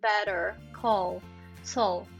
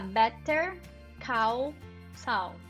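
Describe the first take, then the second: First: The title is pronounced smoothly and fluently. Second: The title is pronounced in an awkward, unnatural way. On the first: The speaker calls it right. "você fala muito bem quando você fala better" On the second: The speaker calls it wrong. "Em vez de você falar"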